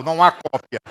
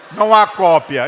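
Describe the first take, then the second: First: Said in the usual way. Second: Loud, hammered repeat of não há cópia; louder emphatic repeat. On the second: Shown as a demonstration. Preacher repeating to the congregation, loud emphatic. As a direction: drive the words home the second time.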